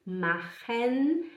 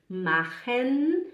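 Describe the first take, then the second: No difference in how they are said.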